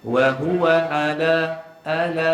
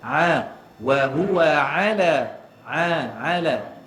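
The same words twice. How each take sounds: First: Ala with the ain dropped to a plain a; wrong weak ain. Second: Slow, a and ala drawn clearly from the throat; correct clear ain. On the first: Teacher showing students the wrong flat ain. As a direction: sing ala as a bare a, no throat sound. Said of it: "Layang atas angin ni. Tak boleh macam tu". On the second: Teacher modelling the correct ain slowly. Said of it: "Dia kena jelas". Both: Shown as a demonstration.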